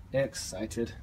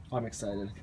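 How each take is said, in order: First: "Excited" stretched out with a rising end; drawn-out emphasis. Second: Said in the usual way. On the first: Real, not acted. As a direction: draw out "Excited", lifting at the end. Repeats the word for emphasis.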